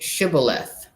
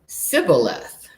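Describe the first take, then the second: First: The word begins with an 'sh' sound. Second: The word begins with a plain 's' sound. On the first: The speaker calls it right. "the first word was with, was with an S H" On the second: The speaker calls it wrong. "he responded just with a simple S"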